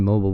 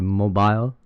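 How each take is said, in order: First: The word is said in an American accent. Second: The word is said in an Australian accent. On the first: This is not how she says it. "she doesn't say mobile" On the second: This is how she says it. "but she say mobile"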